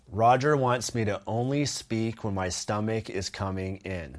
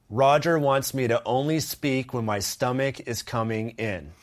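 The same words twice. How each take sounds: First: It is said at a softer volume. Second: It is said at a louder volume.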